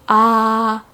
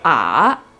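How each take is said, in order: First: The pitch stays level and high throughout. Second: The pitch falls low and then rises again. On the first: "tone number one is also called a flat tone" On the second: "I go down and then I go up"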